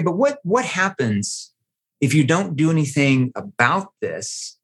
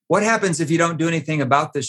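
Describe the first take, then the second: First: It is spoken slowly with deliberate pauses. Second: It is spoken quickly without deliberate pauses.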